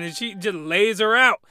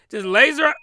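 First: Said in the usual way. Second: "Just lays her out" higher and louder, leaning on "her"; emphatic repeat. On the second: Real, not acted. Repeating the plot point to viewers, "Just lays her out" punched up.

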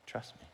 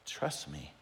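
First: Breathy whispered trust me. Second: A hushed, gentle trust me; soft God voice. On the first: God answering the doubter, now in a whisper. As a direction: whisper it close. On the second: God answering the doubter, hushed and gentle. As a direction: say it softly, reassuring. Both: Pretend. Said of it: "And God's like".

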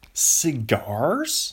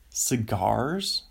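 First: "Cigars?" questioned louder, with rising tune; incredulous, drawn-out "Cigars?"; mock disbelief. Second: Said in the usual way. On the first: Exaggerated second take, mocking.

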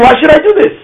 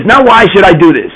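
First: Raised high, defiant question of the wicked son; wicked son's challenge. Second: Said in the usual way. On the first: Retold or imitated. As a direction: throw it out like a rebellious child. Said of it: "He's saying". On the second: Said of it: "the wise person is saying".

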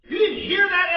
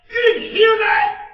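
First: High, loud disbelieving question; loud rebuke. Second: Even higher, full-throated shouted question. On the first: David challenging Eliab, loud and incredulous. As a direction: hammer the question at him. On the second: David roaring the question at Eliab. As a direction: shout it in outrage. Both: Acted.

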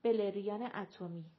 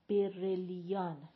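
First: بلریان with l and r swapped, beleriyan; mispronounced word. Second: برلیان slowly, r before l: berelian; corrective pronunciation. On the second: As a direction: draw out برلیان syllable by syllable as a correction. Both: A narrator's reading. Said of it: "گفتی بلریان".

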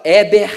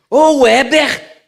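First: Loud, curt mother's call; mãe chamando. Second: Loud, high, drawn-out mother's yell; mãe mudando o tom. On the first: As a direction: call the name like a mother summoning her child. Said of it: "quando ela fala". (mãe chamando alto) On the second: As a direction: yell for your child, stretching the name. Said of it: "já mudou o tom e tal". (grito de mãe brava) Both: Retold or imitated.

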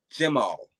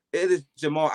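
First: "Jemal" said with a short e in the first syllable, like Jeh-MAL; mispronounced name. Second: "Jamal" said properly, Ja-MAL with a broad first a; correct pronunciation. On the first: Retold or imitated. Mocking teachers who say "Jemal" with the wrong first vowel. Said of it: "then they go". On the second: Shown as a demonstration. Correcting teachers by saying "Jamal" the right way. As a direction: firmly model how "Jamal" should sound. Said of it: "Just say Jamal".

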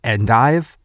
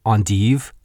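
First: "endive" said EN-dive, English style; "endive" with an English long i; anglicized pronunciation. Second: "endive" said ahn-TEEV, French style; "endive" with a French ahn and long ee; French pronunciation. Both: Shown as a demonstration. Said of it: "pronounce on Jeopardy was".

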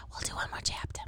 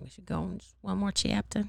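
First: Soft unvoiced whisper. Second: Said in the usual way. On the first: Real, not acted. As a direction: whisper it close to the mic. Whispered aside to listeners.

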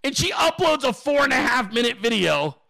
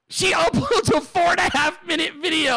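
First: Said in the usual way. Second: High, incredulous repeat through a laugh; can't believe it, pitched right up; laughing disbelief. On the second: Real, not acted. Host retelling the outrageous video upload, laughing disbelief.

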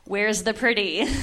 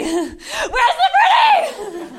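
First: Said in the usual way. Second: High, slow, laughing shout of Where's the pretty; hammed-up laughing shout. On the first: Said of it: "I was like". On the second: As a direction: yell Where's the pretty while laughing, stretched out. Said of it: "repeated, escalating".

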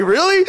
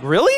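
First: "Really?" squeaked much higher and louder, in total shock; stunned really. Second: A surprised, rising "Really?", higher and louder. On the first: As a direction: shoot "Really?" up high in disbelief. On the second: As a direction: ask "Really?" in plain disbelief. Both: Retold or imitated. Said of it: "Dude, I was so surprised".

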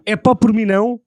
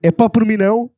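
First: Said out louder and higher; loud line delivery. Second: A louder, punchier retake; louder repeat on request. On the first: Friend asks him to say it again, delivered loud. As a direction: belt it out like a performer. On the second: Repeating the line when asked, louder still. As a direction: hit it harder on the retake. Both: Shown as a demonstration. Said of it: "Agora diz".

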